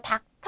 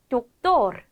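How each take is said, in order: First: It is said the English way, like dakteo. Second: It is said the Spanish way, with a clear o. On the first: The speaker calls it wrong. "이거 닥터 아니죠?" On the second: The speaker calls it right. "doctor 이렇게 읽어주면 되는 거고요"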